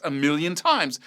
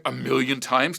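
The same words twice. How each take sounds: First: "times" falling with finality; firm confirmation. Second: "times" lifted into a question; doubting question. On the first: Teacher answering a doubting student, firm falling tune. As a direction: state "million times" as a settled fact. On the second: Student doubting the teacher's advice, questioning rise. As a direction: echo "million times" back as a query. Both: Retold or imitated.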